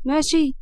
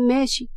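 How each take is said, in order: First: ماشي said as a firm checking question, pitch up; asking for agreement. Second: Said in the usual way. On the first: A narrator's reading. Zainab asking Hana to agree, ماشي as a firm question. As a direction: press ماشي as a prompt for a yes. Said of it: "بلاش الشكل ده".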